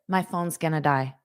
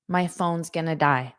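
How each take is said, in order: First: Words are contracted and run together smoothly. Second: The same.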